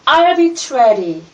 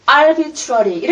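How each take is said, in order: The two takes are said the same way.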